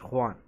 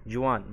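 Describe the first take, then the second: First: خوان starting with a throaty kh sound; Spanish pronunciation of Juan as خوان. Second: The wrong reading of جوان, with an English j; English-style J. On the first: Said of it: "حرف الجي ينطق خاء". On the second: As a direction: say جوان with j as in jam, not the Spanish way. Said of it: "كلمة جوان هنا في الإسباني الجي ينطق خاء". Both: Shown as a demonstration.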